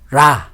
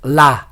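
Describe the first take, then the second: First: The first consonant sounds like an English R. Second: The first consonant sounds like an English L. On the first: The speaker calls it right. "it is read like ra" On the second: The speaker calls it wrong. "not la"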